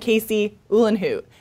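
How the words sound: There is a pause between the two names. Listeners can tell these are two separate names. The speaker calls it right. "literally pause between your first and second name"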